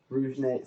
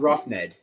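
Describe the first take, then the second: First: The first word ends with a 'zh' sound. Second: The first word ends with an 'f' sound. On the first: The speaker calls it right. "I think it's Rouge Ned" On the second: The speaker calls it wrong. "it's not Rough Ned"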